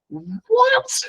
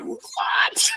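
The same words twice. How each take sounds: First: Much higher, squeaked-out disbelieving "What?"; stunned what. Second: A breathless, voiceless "What?" in disbelief; gasped what. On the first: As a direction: shoot way up in pure disbelief. Renunciate stranger's story stuns him. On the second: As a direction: push out the word on air alone. Stranger's confession stuns him. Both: Retold or imitated.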